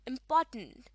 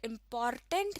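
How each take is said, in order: First: The R sound is silent after the vowel. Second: The R sound is pronounced after the vowel. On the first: The speaker calls it right. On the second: The speaker calls it wrong.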